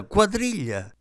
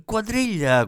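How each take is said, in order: First: High excited call repeated. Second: High excited call, clapping hands. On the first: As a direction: call quadriglia out high once more, eager. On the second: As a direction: call out Quadriglia bright and high, thrilled. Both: Acted. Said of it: "battendo le mani e gridando".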